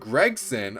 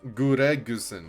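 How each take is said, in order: First: The name is said with a plain English accent. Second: The name is said with a Japanese accent.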